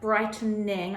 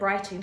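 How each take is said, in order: First: The word is said with three syllables. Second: The word is said with two syllables. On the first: The speaker calls it right. "I can enunciate" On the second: The speaker calls it wrong. "I said brighting, didn't I?"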